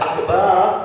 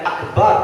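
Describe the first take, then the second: First: The last vowel is drawn out long. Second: The last vowel is said short. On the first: God is a drum. The speaker calls it wrong. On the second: God is the greatest. The speaker calls it right.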